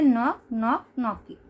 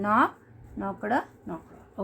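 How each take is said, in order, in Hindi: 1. -ed ending मुश्किल से सुनाई देता है। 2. -ed ending ज़ोर देकर साफ़ बोला जाता है। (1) "ईडी साइलेंट प्रोनाउंस करते हैं" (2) "मैं ईडी को क्या कर रही हूँ, जोर लगा रही हूँ"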